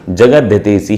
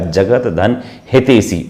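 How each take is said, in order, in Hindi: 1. दोनों भाग जुड़कर एक हो जाते हैं। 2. दोनों भाग अलग-अलग बोले जाते हैं। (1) "पर एक साथ बोलेंगे तो" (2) "अगर स्पष्ट करेंगे तो"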